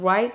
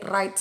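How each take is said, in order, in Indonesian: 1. Bunyi W diucapkan. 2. Bunyi W diam. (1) "bukan W dibaca, bukan write" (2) "tapi write saja, murni R dibaca"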